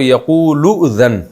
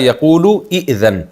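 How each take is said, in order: First: The two words are run together without the glottal stop. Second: The two words are said separately with the glottal stop. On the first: "लाम को अगले हमज़ा से मिला देते हैं" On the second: "असल में था"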